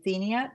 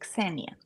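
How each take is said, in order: First: The name is pronounced with an American English sound. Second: The name is pronounced with a Serbian sound. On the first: The speaker calls it wrong. "I called her the American way" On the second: The speaker calls it right. "but it's actually"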